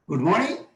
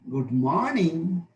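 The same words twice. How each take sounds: First: The pitch rises up to a high level. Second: The pitch falls and then rises again. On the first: "High rise" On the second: "Fall rise"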